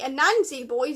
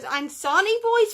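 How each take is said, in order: First: The name is said as A-nan-si. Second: The name is said as An-sa-ni. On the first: The speaker calls it right. "it's actually clearly Anansi Boys" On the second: The speaker calls it wrong. "I've been pronouncing this as Ansani Boys"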